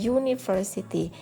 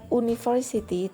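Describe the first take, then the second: First: The word starts with a y sound. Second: The word starts with a plain vowel sound. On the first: The speaker calls it right. "bunyi huruf pertamanya itu adalah huruf konsonan ya, Y" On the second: The speaker calls it wrong. "bacanya bukan university"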